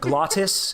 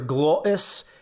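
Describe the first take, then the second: First: The T is pronounced as a clear T. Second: The T is replaced by a glottal stop. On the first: "instead of" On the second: "you stop with your glottis"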